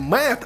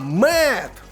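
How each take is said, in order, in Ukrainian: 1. Назва вимовляється як український 'med'. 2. Назва вимовляється як англійський 'mud'. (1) "Не «Мед»" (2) "а «Мед». Ну, як грязюка"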